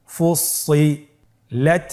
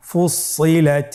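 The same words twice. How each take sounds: First: ফুসিলাত stretched slowly, rising at the end; slow drawn-out reading. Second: Said in the usual way. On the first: Shown as a demonstration. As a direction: draw out ফুসিলাত. (ধীরে টেনে ফুসিলাত) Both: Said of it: "আমার সাথে বলুন".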